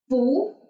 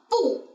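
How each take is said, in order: First: The pitch rises like a question. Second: The pitch falls sharply from high to low. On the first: "We can change bu to second tone as bu" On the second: "this word originally should be fourth tone"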